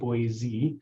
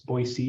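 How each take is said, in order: First: It is said the way outsiders say it. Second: It is said the way local residents say it. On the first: The speaker is not from the city. The speaker calls it wrong. "not Boise" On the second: The speaker is from the city. The speaker calls it right. "if you're from Boise, you know it's Boise"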